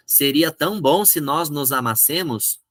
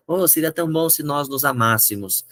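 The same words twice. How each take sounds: First: "amassemos" with the penultimate SE strong; stress on SE. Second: "amássemos" with the antepenultimate MÁS strong; stress on MÁS. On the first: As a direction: recite the note wrongly as a-mas-SE-mos. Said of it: "a tônica vai ficar paroxítona". (paroxítona, tônica no SE de "amassemos") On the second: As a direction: recite the note, stressing a-MÁS-se-mos. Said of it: "A, a sílaba tônica tá aqui". (proparoxítona, tônica no MÁS de "amássemos") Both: Shown as a demonstration.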